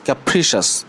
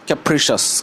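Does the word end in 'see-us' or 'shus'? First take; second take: shus; shus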